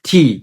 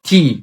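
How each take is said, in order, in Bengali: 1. t ধ্বনিতে একটি জোরালো বাতাসের ঝলক আছে। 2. t ধ্বনিতে একটি জোরালো বাতাসের ঝলক আছে।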